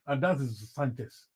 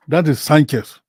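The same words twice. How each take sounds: First: Said in the usual way. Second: Louder, punching the name Sanchez; emphatic repeat. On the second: Real, not acted. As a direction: hammer home "That is Sanchez".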